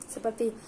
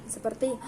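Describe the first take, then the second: No difference in how they are said.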